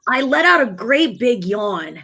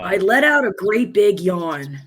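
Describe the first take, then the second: First: It is said in a higher, Ash Ketchum-like voice. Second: It is said in a deeper voice.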